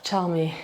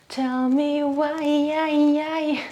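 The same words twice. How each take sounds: First: Said in the usual way. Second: Slow, high, sung; sung line. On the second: Pretend. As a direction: sing it like a pop chorus. Sings the line.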